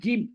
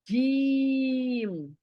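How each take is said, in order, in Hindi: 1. स्वर छोटा है और जल्दी बोला जाता है। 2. स्वर लंबा है और खींचकर बोला जाता है। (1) "इट इज नॉट जिम" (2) "फास्ट नहीं बोलना है, खींच कर"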